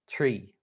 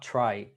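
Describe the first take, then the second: First: The vowel sounds like 'ee'. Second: The vowel sounds like 'eye'. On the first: The speaker calls it right. "it's tree" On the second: The speaker calls it wrong. "it's not try"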